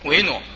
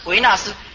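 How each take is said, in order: First: The second syllable is said as nuo. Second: The second syllable is said as na. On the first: The speaker calls it right. "要念维挪" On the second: The speaker calls it wrong. "很多出家人都念错，他是念维纳斯"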